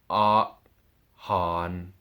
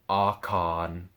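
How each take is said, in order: First: The two words are said apart. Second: The two words run together as one. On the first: The speaker calls it wrong. "you don't say han and separate it" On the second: The speaker calls it right. "They instead become combined together"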